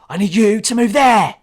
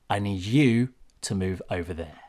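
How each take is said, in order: First: Harsh and confrontational, without the calm falling end. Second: Firm and calm, with the pitch falling at the end. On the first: The speaker is picking a fight with the listener. The speaker calls it wrong. "if I'm being aggressive or confrontational, it would be like" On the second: The speaker expects to be obeyed without a fight. The speaker calls it right. "when you're being authoritative, you'd be like, ... And I go down at the end"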